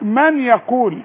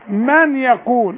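First: The n is pronounced separately before the y. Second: The n merges into the y, sounding like 'may'. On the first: The speaker calls it wrong. "في ناس ما بتعرفش تقول الكلمة دي، يقول لك من يقول" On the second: The speaker calls it right. "اقول له بنتك اسمها مي"

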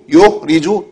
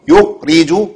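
The two takes are said the same way.

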